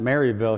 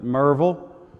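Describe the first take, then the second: First: The name begins with a full 'Mary' sound. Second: The name begins with a short 'Mer' sound. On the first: This is how an outsider says the name. The speaker calls it wrong. "they don't pronounce it Maryville here" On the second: This is how locals say the name. The speaker calls it right. "how do they pronounce it? He said, Merville"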